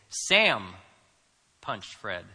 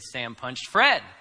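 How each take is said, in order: First: The stress is on Sam. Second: The stress is on Fred.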